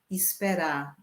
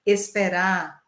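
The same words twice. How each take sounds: First: Esperar said as ispera, with i in the first syllable and no final r; regional pronunciation. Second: Said in the usual way. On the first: Shown as a demonstration. Teacher contrasting esperar with the local ispera.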